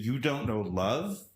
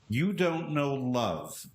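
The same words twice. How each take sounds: First: It ends rising, like a question. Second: It ends falling, like a statement.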